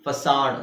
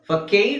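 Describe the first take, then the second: First: The middle consonant is an s sound. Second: The middle consonant is a k sound. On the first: The speaker calls it right. "ಫಸಾಡ್ ಅಂತ ಹೇಳ್ತಾರೆ" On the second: The speaker calls it wrong. "ಫಕೈಡ್ ಅಂತ ಹೇಳಲ್ಲ"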